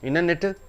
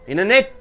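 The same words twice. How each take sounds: First: The T after the N is clearly pronounced. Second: The T after the N is dropped. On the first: The speaker calls it wrong. "Do you say internet? No" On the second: The speaker calls it right. "T is not pronounced because after immediately after N T comes"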